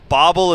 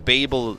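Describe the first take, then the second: First: The name is pronounced the Korean way. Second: The name is pronounced the English way. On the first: "how it'd be pronounced in Korean" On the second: "how it's supposed to be pronounced as like a word in the English language"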